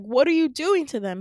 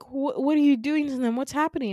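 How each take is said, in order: First: Louder, higher acted outburst; insistent demand. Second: Higher, louder stammered question, mildly acted alarm; alarmed demand. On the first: Retold daughter demanding answers from her father, forceful and insistent. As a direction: press the question hard, dramatized. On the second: Retold daughter confronting her father about her friends, alarmed. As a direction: demand answers, lightly dramatized.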